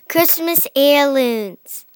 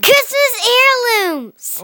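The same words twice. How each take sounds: First: It is said more quietly. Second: It is said loudly and excitedly.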